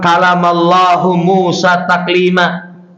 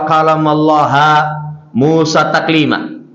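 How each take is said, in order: First: The name Allah ends with a 'hu' sound. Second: The name Allah ends with a 'ha' sound. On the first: God is the one who speaks to Moses. The speaker calls it right. "kalau dibaca hu" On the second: Moses is the one who speaks to God. The speaker calls it wrong. "Allah dibaca ha"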